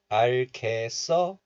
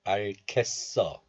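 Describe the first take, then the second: First: 알겠어 as 알-개-써, open 개; linked pronunciation. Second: 알겠어 as 알-겟-써, held before the tense s; stopped middle syllable. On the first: Teacher showing the first option, 알겠어 said 알-개-써. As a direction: link 알겠어 so 개 ends on its vowel. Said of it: "So 알겠어 is okay". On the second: Teacher showing the second option, 알겠어 said 알-겟-써. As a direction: stop on 겟 inside 알겠어, then 써. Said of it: "and also 알겠어 is okay too". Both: Shown as a demonstration.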